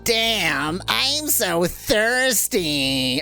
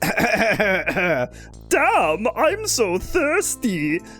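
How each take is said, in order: First: It is said in a respectful hero voice. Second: It is said in a put-on vampire voice.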